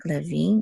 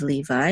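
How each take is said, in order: First: "Levi" said le-VEE; Hebrew pronunciation. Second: "Levi" said LEE-vye; English pronunciation. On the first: Teacher correcting a student's name reading, Hebrew pronunciation. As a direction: say "Levi" with eh, then a stressed vee. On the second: Teacher contrasting with Hebrew, English pronunciation. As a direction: say "Levi" the English way, rhyming with eye. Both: Shown as a demonstration. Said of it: "instead of Levi in English".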